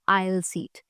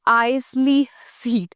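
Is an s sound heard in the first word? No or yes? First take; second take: no; yes. First: The first word is said without an s sound. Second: The first word is said with an s sound.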